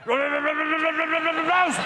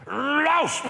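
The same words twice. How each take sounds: First: It is said with a stammer. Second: It is said with a lisp. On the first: "And then it developed a stammer" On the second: "it's got a lisp, this dog. And when it barks, he goes like this"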